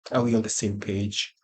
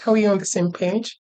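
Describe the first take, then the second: First: Said in the usual way. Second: Much higher, rising question; high questioning repeat. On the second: Pretend. Teacher checking that the class follows, high questioning voice. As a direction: ask it high, lifting at the end.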